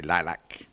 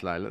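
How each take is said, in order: First: "lilac" said lie-lack with a full short a at the end; lightly mimicked "lilac" with a clipped lack ending; Caroline's lilac. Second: Said in the usual way. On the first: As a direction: imitate a friend saying "lilac" as lie-lack. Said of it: "Caroline would say". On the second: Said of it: "as our friend would say".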